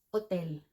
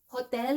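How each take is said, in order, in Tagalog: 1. Nagsisimula ang salita nang walang anumang tunog ng h. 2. Nagsisimula ang salita sa maririnig na tunog ng h. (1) "pero ang pronunciation niya in French is hotel. O-tel. Silent H" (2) "hotel in English"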